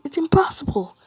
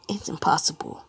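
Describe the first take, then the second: First: High, loud cry of disbelief; acted panic, pitched far up; panicked exclamation. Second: Said in the usual way. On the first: All Might cannot lift the hammer.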